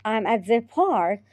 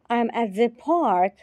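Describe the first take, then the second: No difference in how they are said.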